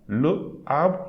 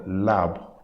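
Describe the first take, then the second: First: The article is a separate syllable before the noun. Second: The article merges with the noun as one word. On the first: The speaker calls it wrong. "I'm not going to say le arbre" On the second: The speaker calls it right. "like one word"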